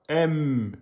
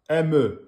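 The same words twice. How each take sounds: First: The m is held long with lips closed. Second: The m is cut short with a bounce. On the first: The speaker calls it right. "vous dites bien" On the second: The speaker calls it wrong. "ne dites pas"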